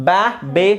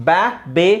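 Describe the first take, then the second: Both takes have the same delivery.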